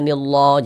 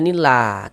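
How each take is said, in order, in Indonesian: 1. Bunyi l-nya berat dan tebal. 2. Bunyi l-nya ringan dan tipis. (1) "jangan dibaca nillah, jangan"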